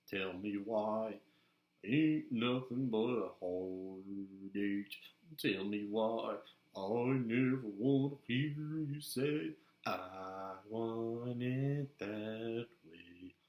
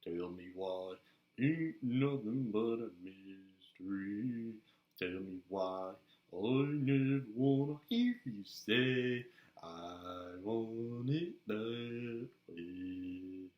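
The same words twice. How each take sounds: First: Slow a cappella pop singing. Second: Put-on slow, sung boy-band chorus, long held notes; singing. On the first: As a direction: sing out the boy-band chorus in a put-on voice. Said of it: "I can sing". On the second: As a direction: croon the pop chorus in a changed voice. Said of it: "change my voice". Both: Shown as a demonstration.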